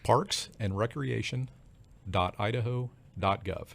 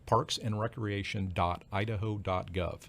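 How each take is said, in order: First: It is said slowly and carefully. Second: It is said at normal, quicker speed.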